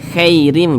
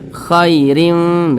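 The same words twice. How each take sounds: First: The vowel after kh leans toward an e sound. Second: The vowel after kh is a soft, relaxed ai glide. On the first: The speaker calls it wrong. "jangan condong ke eh, jangan nanti dibaca khairim" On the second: The speaker calls it right. "tapi lunak mudah. Khairim begitu"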